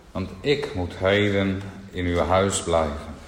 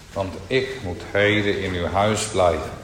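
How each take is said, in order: Both takes have the same delivery.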